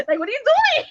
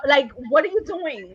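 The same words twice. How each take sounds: First: Much higher-pitched, exasperated question; incredulous mock protest. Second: Said in the usual way. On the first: Woman scolding a clumsy lover, high incredulous protest. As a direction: squeal it in mock disbelief. Acted reaction, repeated higher.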